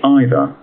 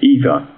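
First: It is said with a British accent. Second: It is said with an American accent. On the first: "Brits say" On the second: "Americans say"

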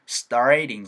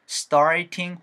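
First: The middle t is a soft flap. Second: The middle t is a crisp t sound.

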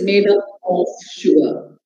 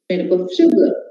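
First: The word of is said fully and clearly. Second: The word of is said quickly and weakly. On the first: The speaker calls it wrong. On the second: The speaker calls it right.

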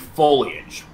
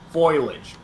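First: The word begins with a sound like 'foe-lee'. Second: The word begins with a sound like 'foil'. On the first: The speaker calls it right. "it's supposed to be foliage" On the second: The speaker calls it wrong. "One is basically foil"

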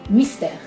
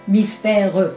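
First: The final e is silent. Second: The final e is pronounced as a vowel. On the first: The speaker calls it right. "on dit mystère. Donc il y a un E muet" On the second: The speaker calls it wrong. "On ne dit pas mystère"

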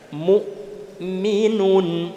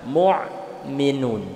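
First: The glottal stop is only lightly touched. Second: The glottal stop is pressed, sounding like 'ain'. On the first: The speaker calls it right. "Hanya nempelkan saja" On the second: The speaker calls it wrong. "itu sudah masuk ke makhraj huruf ain"

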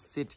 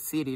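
First: The word is said in a non-American accent. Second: The word is said in an American accent. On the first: "not city" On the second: "America people is saying city"

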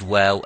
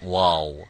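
First: The letter is said light, with a thin mouth. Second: The letter is said heavy, with a full mouth. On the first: The speaker calls it right. "actually it is waw" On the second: The speaker calls it wrong. "and not waw"

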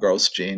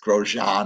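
First: The name sounds like English 'gross gene'. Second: The name does not sound like 'gross gene'. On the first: The speaker calls it wrong. "I call him Gross Gene" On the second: The speaker calls it right. "Grosjean is the right pronunciation"

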